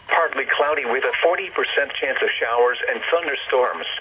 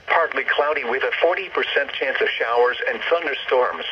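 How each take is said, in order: Both takes have the same delivery.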